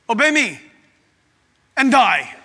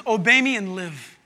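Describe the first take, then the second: First: Loud, mock menacing command; terrorist God. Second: Said in the usual way. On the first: Preacher mocks the idea of a terrorist God, loud threat. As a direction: order it forcefully, breaking it in two. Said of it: "He's not a terrorist God". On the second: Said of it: "He says".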